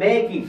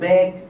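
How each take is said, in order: First: The word ends with an extra 'ee' vowel. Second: The word ends on the consonant, no vowel. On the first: The speaker calls it wrong. "আপনি কিন্তু বেকি এভাবে বলেন না" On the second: The speaker calls it right. "ইয়ের উচ্চারণ করেন না"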